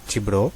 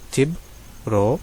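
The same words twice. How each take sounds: First: Said in the usual way. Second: چبرو drawn out very slowly, syllable by syllable; slow demo. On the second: Shown as a demonstration. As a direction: stretch each sound of چبرو for the learner. (چبرو کو بہت آہستہ، ایک ایک حصہ کھینچ کر)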